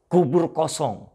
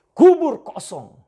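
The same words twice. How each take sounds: First: Said in the usual way. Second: "Kubur kosong" slow, much higher and much louder; "Kubur kosong" thundered slowly from the pulpit; proclaimed loudly. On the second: Shown as a demonstration.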